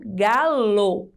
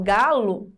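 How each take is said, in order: First: "galo" said as "GA-lo", with a clear closed O at the end; final O as written. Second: "galo" said as "GA-lu", ending in a U sound; final O as U. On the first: Teacher correcting lu to lo, "galo" sounded out with a clear final O. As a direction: sound out "galo" carefully, ending on a full "lo". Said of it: "é lo". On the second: Teacher showing pupils the everyday sound, "galo" ending in "lu". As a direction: end "galo" on a weak, short "lu". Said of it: "não é lu". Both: Shown as a demonstration.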